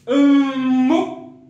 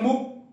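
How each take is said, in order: First: The start is drawn out on a high tone. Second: The start is short, with no drawn-out high tone. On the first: The speaker calls it right. "Ça se dit comme un ton haut traîné" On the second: The speaker calls it wrong. "Si on enlève ça, on ne va pas traîner"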